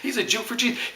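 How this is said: It is said in a warm, admiring tone. It praises the person's faith. "That's a compliment"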